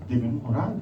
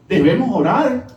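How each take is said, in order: First: Soft echoed repeat. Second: Said in the usual way. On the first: Shown as a demonstration. Repeated exhortation, soft echo.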